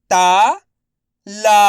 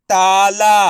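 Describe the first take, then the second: First: ताला split as ता, long pause, ला; syllable by syllable. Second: ताला joined with no gap, both vowels long; blended word. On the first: Teacher sounding out letters for learners, syllable by syllable. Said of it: "एक अक्षर का उच्चारण करके". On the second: Teacher modelling the whole word for learners, blended. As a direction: blend ताला into one level, held word. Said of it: "उसी तरीके से आपको भी". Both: Shown as a demonstration.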